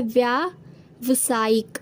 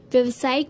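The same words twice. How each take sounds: First: व्यावसायिक slow, long aa in the first syllable, "vyaa... vasaayik"; correct form. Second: व्यावसायिक with a short first vowel, "vyav-sa-ik"; wrong form. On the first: Teacher giving students the correct form, व्यावसायिक with drawn-out vyaa. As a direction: draw out 'vyaa' in व्यावसायिक. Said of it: "शुद्ध रूप होता है". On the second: Teacher showing students the misspelt व्यावसायिक, short first vowel. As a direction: say व्यावसायिक clipping 'vyaa' to 'vya'. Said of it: "कोई शब्द नहीं होता". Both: Shown as a demonstration.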